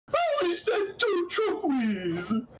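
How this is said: It is said with strong disgust and gusto.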